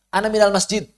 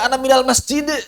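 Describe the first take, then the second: First: The final d ends plainly without a bounce. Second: The final d ends with an echoing bounce. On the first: "Eh mana kol-kolahnya?"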